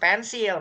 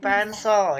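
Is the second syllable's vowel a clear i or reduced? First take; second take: clear i; reduced. First: The second syllable has a clear i vowel. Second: The second syllable has a reduced vowel. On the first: The speaker calls it wrong. "bukan pensil. Mana pensil nggak ada i di situ?" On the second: The speaker calls it right. "gitu pensil ya"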